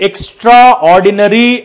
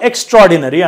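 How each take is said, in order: First: It is said as two separate parts. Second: It is said as one blended word. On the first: The speaker calls it wrong. "ఎక్స్ట్రా ఆర్డినరీ అని అనద్దు" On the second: The speaker calls it right. "ఎక్స్ట్రాడినరీ అనండి"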